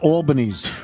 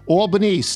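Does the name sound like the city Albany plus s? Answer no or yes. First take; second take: yes; no. First: The name sounds like the city 'Albany's'. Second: The name does not sound like 'Albany's'. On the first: The speaker calls it wrong. "It's not Albany, New York" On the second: The speaker calls it right. "Albanese, not Albany's"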